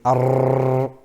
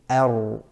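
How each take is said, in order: First: The r is trilled with strong, continuous vibration. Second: The r is a light tap without excess vibration. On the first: The speaker calls it wrong. "we don't want to say ar" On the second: The speaker calls it right. "we want to say ar"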